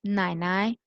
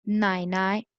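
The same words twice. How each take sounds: The two takes are said the same way.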